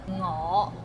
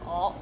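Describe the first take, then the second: First: The word begins with an ng sound. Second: The word begins directly with a vowel sound. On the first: The speaker calls it right. "o sound instead of ngo" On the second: The speaker calls it wrong. "we get lazy and we just saying oh"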